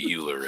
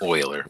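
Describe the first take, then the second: First: The name starts with a 'yoo' sound. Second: The name starts with an 'oy' sound. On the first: The speaker calls it wrong. "I'm gonna say it wrong and say it's Euler" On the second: The speaker calls it right. "Oiler. My bad"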